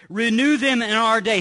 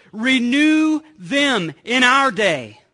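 First: Said in the usual way. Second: Slow, louder plea, words stretched out; pleading cry. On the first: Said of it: "he says". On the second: Retold or imitated. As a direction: cry it out to God. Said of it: "He's crying out to God".

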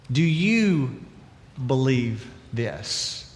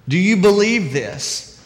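First: Soft, slow question. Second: Said in the usual way. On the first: Shown as a demonstration. Preacher asks the congregation, soft and slow. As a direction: do you believe this said very softly and slowly, believe drawn out. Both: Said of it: "So let me ask you".

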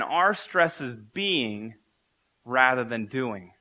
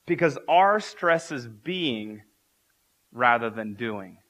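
First: Are stretched very slowly and weighted; slow deliberate repeat, are held long; repeated for emphasis. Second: Are drawn out slowly and weighted; slow emphatic are stresses being. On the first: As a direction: say it again slower, leaning on are. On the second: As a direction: lean hard on are, then let rather than doing fall. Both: Shown as a demonstration. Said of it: "I'll say that again".

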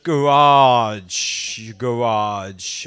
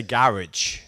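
First: GARAGE as guh-RAHJ, drawn out; low-pitched "guh-RAAHJ"; American garage. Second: GARAGE as GARR-idge; low-pitched "GARR-idge"; British garage. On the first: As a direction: stress the second syllable of Garage, long "ah". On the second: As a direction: stress the first syllable of garage, ending like "ridge". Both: Shown as a demonstration. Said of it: "I would say garage".

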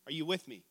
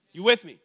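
First: Said in the usual way. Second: Much louder prodding question; louder check-in. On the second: Real, not acted. Preacher asking the congregation to respond, loud prodding. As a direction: prod the room for a response.

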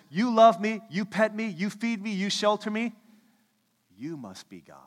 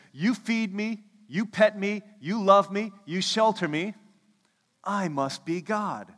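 First: A lightly voiced eager dog, higher and louder; adoring dog. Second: A lightly voiced haughty cat, higher and louder; smug cat. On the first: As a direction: play the devoted dog in awe. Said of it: "A dog says". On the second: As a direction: play the cat who thinks it is God. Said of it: "A cat says".

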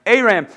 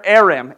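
First: Aram said as AY-ram, with a long AY opening; second, settled try at Aram; pronounced Aram. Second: Aram said as AIR-am, stressed on the first syllable; unsure first try at Aram; pronounced Aram. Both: Shown as a demonstration. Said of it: "I think that's how you say it".

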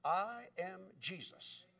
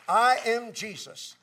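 First: Soft, slow, weighty reveal; quiet divine answer. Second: Loud, slow, emphatic declaration; proclaimed divine answer. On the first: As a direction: answer gently, spacing each word. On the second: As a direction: proclaim it forcefully, leaning on each word. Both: Retold or imitated. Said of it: "he got an answer back".

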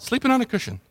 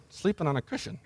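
First: Said in the usual way. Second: Very soft, almost under the breath; hushed, knowing delivery; sly little aside. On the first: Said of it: "Mark almost says that with a little". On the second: Acted. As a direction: slip it in as a tiny hushed aside. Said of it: "almost says that with a little".

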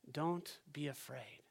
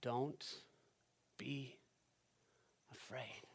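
First: Comforting. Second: Much softer, with long pauses between "Don't", "be", "afraid"; gentle comfort. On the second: Pastor comforting fearful listeners, soft and slow. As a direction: lay each word down slowly and tenderly. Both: Shown as a demonstration. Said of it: "words of comfort".

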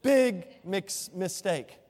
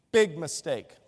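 First: "Big mix-, mistake" diulang dengan tekanan keras pada "Big"; emphatic again. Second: "Big mistake" diucapkan tegas dan keras dengan nada turun; emphatic. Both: Shown as a demonstration. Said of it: "Let me say that again".

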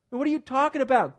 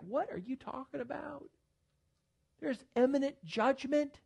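First: Higher, louder indignant question; louder, pitched-up exasperated challenge; indignant preaching. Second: Incredulous retort. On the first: Acted. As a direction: throw the question at them. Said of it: "preacher repeats his retort, now loud". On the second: Retold or imitated. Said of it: "And I was like".

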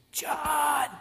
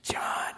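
First: Loud, high strained hiss; whisper-shout to get his attention; insistent stage whisper. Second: Whispered call to a friend; urgent whisper. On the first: Peter trying harder to get John's attention, whisper-shouted. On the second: Peter secretly getting John's attention at supper, whispered. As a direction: whisper to get his attention unnoticed. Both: Acted.

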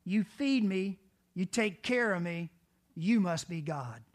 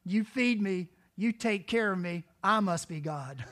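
First: Loud, stress on YOU in "you must be God"; loud dog quote, YOU stressed as the one who is God; dog's reasoning. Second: Loud, stress on I in "I must be God"; loud cat quote ending on a self-important I; cat's reasoning. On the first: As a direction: punch YOU in "you must be God", crediting the other. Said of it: "A dog says". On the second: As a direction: punch I in "I must be God", claiming it for oneself. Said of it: "A cat says". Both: Acted.

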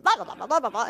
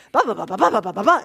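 First: Mock Italian comeback. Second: Loud, rapid babble of an angry driver; mock Italian yelling. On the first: Old man yelling back at the driver, mock babble. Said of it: "the old man starts giving it back to him". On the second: Taxi driver shouting at the old man, loud mock babble. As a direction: rattle it off like a furious cabbie. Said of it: "this guy's like ... in Italian".

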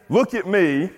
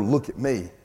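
First: Raised-pitch imitation of a show-off; mock attention-seeking. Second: Said in the usual way. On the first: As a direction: call for notice in a higher voice. Mimics attention-seeking Paul never did.

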